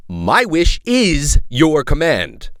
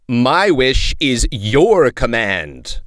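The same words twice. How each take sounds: First: Mild retake. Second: Mild genie-like read. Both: Shown as a demonstration.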